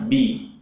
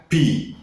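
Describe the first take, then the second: First: Bi with no air; correct bi. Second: Slow bi with air escaping; wrong breathy bi. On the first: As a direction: say bi crisp. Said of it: "Yang benar bi". (bi yang benar tanpa angin) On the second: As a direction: push breath out on bi. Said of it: "bukan bi". (bi yang salah dengan angin) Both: Shown as a demonstration.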